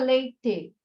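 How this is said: The final vowel sounds like e. This is how it is said in the south. "a gente não fala leite, igual no sul"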